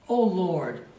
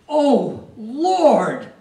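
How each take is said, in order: First: It is said plainly, without much force. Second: It is said with inflection and power.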